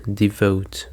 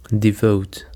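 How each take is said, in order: First: DeVOTE, the vote in devote said strongest; teacher repeating devote with its stress on vote; stress on the second syllable. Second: DeVOTE with the second syllable stressed; teacher modelling Devote with its stress on vote. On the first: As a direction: hit the vote in devote, then let it fall. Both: Shown as a demonstration. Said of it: "the stress is on the second syllable".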